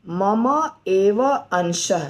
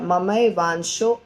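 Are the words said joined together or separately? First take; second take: separately; joined. First: Three separate words are said one by one. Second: The words are merged into one joined word. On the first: "तीन शब्द हैं" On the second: "एक संधि"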